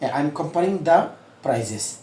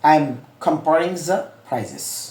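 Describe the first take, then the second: First: The word 'the' starts with a hard d sound. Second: The word 'the' starts with a soft th sound. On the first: The speaker calls it wrong. "আমি কিন্তু দাটা বলছি" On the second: The speaker calls it right. "এটা হলো international শব্দটা।"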